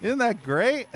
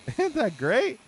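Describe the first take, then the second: First: High, mock-cheerful sarcasm; sarcastic. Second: Slow, high, drawn-out mock praise with a laugh; laughing sarcasm. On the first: Streamer mocking the glitchy door, sarcastic high praise. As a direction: pretend to be delighted by the bug. Game glitch blocks him. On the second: Streamer repeating the jab at the game, slow laughing sarcasm. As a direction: stretch it out, laughing at the absurdity. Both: Real, not acted.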